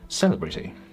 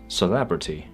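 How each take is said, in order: First: The stress is on the first syllable. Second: The stress is on the second syllable. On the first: The speaker calls it wrong. "rather than celebrity" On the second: The speaker calls it right. "this word is pronounced as celebrity"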